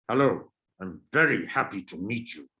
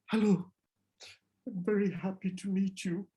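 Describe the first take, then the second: First: Irritated, put-out greeting; annoyed. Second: Nervous, higher greeting that goes soft; worried. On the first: Teacher showing students an annoyed greeting. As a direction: greet them as if they're a nuisance. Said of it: "I'm conveying more annoyance". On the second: Teacher showing students a worried greeting. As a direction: say it like you're scared of them. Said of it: "I'm worried. Maybe I'm scared". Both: Shown as a demonstration.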